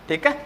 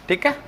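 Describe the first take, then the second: No difference in how they are said.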